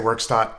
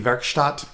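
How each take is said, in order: First: The name is said with an English pronunciation. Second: The name is said with a German pronunciation. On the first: "A lot of YouTubers were saying Workstot" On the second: "It looked German to me, so I thought maybe Werkstatt"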